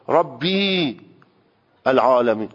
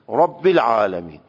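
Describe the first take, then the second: First: The vowel after rabb is stretched long. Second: The vowel after rabb is short. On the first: The speaker calls it wrong. "این رب رو اشباع بکنی که تبدیل به حرف یا بشه ... اون غلطه" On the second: The speaker calls it right. "لهجه عربی اینه که رب العالمین"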